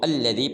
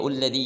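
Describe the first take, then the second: First: The word begins with an a vowel. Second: The word begins with a u vowel. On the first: The speaker calls it right. "बल्कि इसको अल्लज़ी पढ़ेंगे" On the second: The speaker calls it wrong. "लोग पढ़ देते हैं इल्लज़ी या उल्लज़ी, ये बिल्कुल गलत है"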